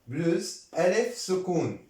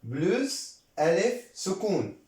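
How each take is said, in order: No difference in how they are said.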